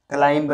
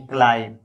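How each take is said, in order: First: "क्लाइंब" with the final b sounded; wrong pronunciation. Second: "क्लाइम" ending on m, no b; correct silent b. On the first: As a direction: release a b after the m in "क्लाइंब", klaim-ba. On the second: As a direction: close "क्लाइम" on the m alone. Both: Shown as a demonstration. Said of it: "क्लाइंब नहीं क्लाइम".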